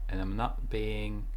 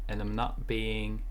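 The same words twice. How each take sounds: No difference in how they are said.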